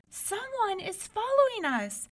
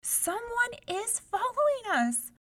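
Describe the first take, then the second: First: Much higher, scared warning; high-pitched frightened whimper; frightened cry. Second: Much higher, scared warning; high-pitched frightened plea; frightened cry. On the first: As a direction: warn the sisters in fear. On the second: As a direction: insist to the sisters in fear. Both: A narrator's reading. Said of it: "she cried".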